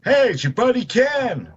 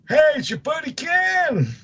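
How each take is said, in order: First: A higher, hammed-up Ken voice; playing Ken. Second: Playing Ken, pitched higher. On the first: Co-host standing in as Ken, a higher, hammed-up voice. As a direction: slip into a goofy buddy character. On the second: Co-host retries the intro as a much higher cartoon Ken. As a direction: push the goofy Ken voice way up. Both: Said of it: "I'll stand in for you".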